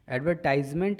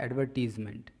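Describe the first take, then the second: First: The third syllable sounds like 'tize'. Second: The third syllable sounds like 'teez'. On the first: The speaker calls it wrong. "इसे ना पढ़ें" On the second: The speaker calls it right. "ये है एडवर्टीजमेंट"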